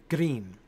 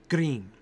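First: The R is a single quick flip. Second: The R is a single quick flip.

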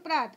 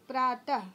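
First: The word ends without a breathy h sound. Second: The word ends with a breathy h sound. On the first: "ऐसे पढ़ोगे तो" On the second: "विसर्ग लग गया तो प्रातः, ह जैसा उच्चारण हुआ"

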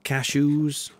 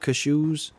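First: It is said with an American pronunciation. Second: It is said with a British pronunciation. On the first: "Not cashews" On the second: "pronounce cashews like I do"

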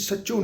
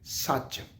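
First: The word ends with a nasal 'o' vowel. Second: The word ends on the consonant 'ch'. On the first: The speaker calls it wrong. "ਇਹਨੂੰ ਅਸੀਂ ਸੱਚੋਂ ਨਹੀਂ ਪੜ੍ਹ ਰਹੇ" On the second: The speaker calls it right.

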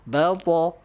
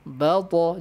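No difference in how they are said.

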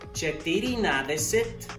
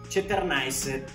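First: Every syllable of the full form is said. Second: The word is shortened, dropping middle sounds. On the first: This is how it is written. "la manera escrita" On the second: This is how it is actually spoken. "la manera al último de cómo se pronuncia"

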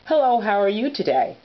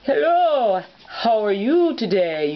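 First: It is said in the speaker's ordinary voice. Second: It is said in a put-on character voice. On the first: "this is my normal voice" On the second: "But with Mr. Scotty"

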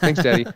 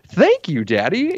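First: It is said flatly, without appreciation. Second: It is said joyfully, with appreciation.

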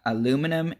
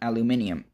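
First: It is said the American way, four syllables. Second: It is said the British way, five syllables.

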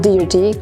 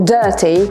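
First: The vowel is not the 'er' sound. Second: The vowel is the 'er' sound of herb. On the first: The speaker calls it wrong. "a nie dirty" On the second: The speaker calls it right. "Wszyscy wiemy, że jest słowo dirty"

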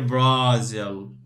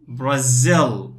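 First: The stress falls on the first syllable. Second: The stress falls on the second syllable. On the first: The speaker calls it wrong. "We don't say Brazil" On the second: The speaker calls it right. "this is the stress here, okay? So we say Brazil"

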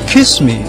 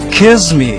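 First: The middle consonant is an s sound. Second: The middle consonant is a z sound.

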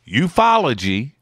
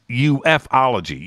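First: The first part is said as one word, you-fology. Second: The first part is spelled out as letters, U-F-O. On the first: The speaker calls it right. "It's either ufology or youthology, right? That's it. Either one works" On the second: The speaker calls it wrong. "but it ain't UFOlogy"

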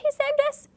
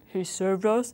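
First: It is said in a high-pitched voice. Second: It is said in a deep voice.

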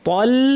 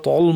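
First: The L sound is light and thin. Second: The L sound is heavy and thick. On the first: The speaker calls it right. "তল মুসটা সব পাতলা।" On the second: The speaker calls it wrong. "ভুলটা দেখাচ্ছি।"

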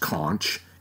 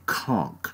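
First: The word ends with a ch sound. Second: The word ends with a k sound. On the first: The speaker calls it wrong. "many people would think it should be pronounced conch, it's not" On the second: The speaker calls it right. "It's more pronounced like K-O-N-K"

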